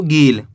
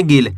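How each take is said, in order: First: गील with the ee drawn out; wrong long ee. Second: गिल with a brief, clipped i vowel; short i. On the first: Teacher warning learners how not to read it, गील with long ee. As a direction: stretch the vowel in गील into a long ee. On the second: Teacher showing learners the right reading, गिल with short i. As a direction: say गिल without stretching the vowel. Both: Shown as a demonstration. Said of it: "ऐसे नहीं पढ़ना आपको".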